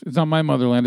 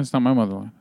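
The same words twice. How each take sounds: First: It's not my motherland, with "not" stressed. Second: It's not my motherland, with "my" stressed. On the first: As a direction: lean on "not", not "my". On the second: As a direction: lean on "my" this time. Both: Shown as a demonstration.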